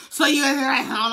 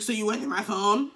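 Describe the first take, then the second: First: Mock angry yell, loud and raised; blowing up. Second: Said in the usual way. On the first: Boyfriend confronting her about his phone, blowing up. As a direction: imitate him blowing up over the phone. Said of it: "he's blowing up at me".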